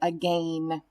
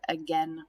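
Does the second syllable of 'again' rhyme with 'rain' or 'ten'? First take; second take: rain; ten. First: The second syllable has a long A sound. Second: The second syllable has a short E sound. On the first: The speaker calls it wrong. "it's a double vowel that typically makes that A sound, we don't pronounce that word again" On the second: The speaker calls it right. "We pronounce that word again"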